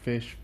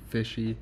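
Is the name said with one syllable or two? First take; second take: one; two. First: The name is said as one syllable. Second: The name is said as two syllables. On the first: "I pronounce it fish" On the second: "Some people pronounce it fishy"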